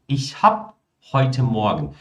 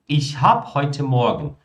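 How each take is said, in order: The two takes are said the same way.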